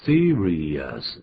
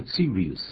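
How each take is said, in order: First: "Serious" with rious fully sounded out; full ending pronounced. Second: "serious" squashed into two syllables, like series; ending swallowed. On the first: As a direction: say "Serious" slowly in three syllables, see-ree-us. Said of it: "这个rious一定要把它念出来". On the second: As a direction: say "serious" wrongly as see-rees, dropping the us. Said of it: "不要念serious". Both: Shown as a demonstration.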